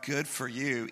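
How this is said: It is said in a mocking, sarcastic tone. The praise is not meant and mocks the claim. The speaker calls it right.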